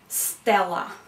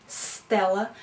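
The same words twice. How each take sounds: The two takes are said the same way.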